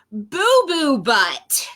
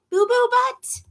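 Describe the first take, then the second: First: Slow, grand announcement of the name; drawn-out silly name. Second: High, baffled echo of the name; incredulous question. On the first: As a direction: stretch out the name proudly. Book announces hippo's silly name. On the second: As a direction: ask it in disbelief. Reader repeats name in disbelief. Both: Acted.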